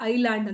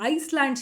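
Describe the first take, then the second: First: The s sound is left out entirely. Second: The s sound is pronounced in the middle. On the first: "ಐಲ್ಯಾಂಡ್ ಅಂತ ಹೇಳಿ ನಾವು ಉಚ್ಚಾರ ಮಾಡ್ತೀವಿ" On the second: "ಎಸ್ ಅನ್ನ ನಾವು ಅದನ್ನು silent ಮಾಡ್ತೀವಿ"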